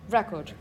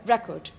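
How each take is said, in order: No difference in how they are said.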